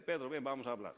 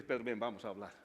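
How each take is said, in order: First: Said in the usual way. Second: Lower, changed voice for Jesus inviting Pedro; the risen Lord to Pedro, a lower, changed voice; gentle Jesus voice. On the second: Acted. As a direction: sound like the Lord calling a friend aside. Jesus calls Peter to talk.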